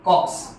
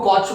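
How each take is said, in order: First: The word ends with a 'ks' sound. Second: The word ends with a 'ch' sound. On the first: The speaker calls it right. "Actually pronounce किया जाता है as कॉक्स" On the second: The speaker calls it wrong. "बहुत लोग इसको कॉच बोलते हैं"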